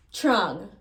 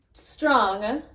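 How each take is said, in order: First: Trong without the S; S dropped. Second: Said in the usual way. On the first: Shown as a demonstration. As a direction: say trong, patois style. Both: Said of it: "Strong becomes trong".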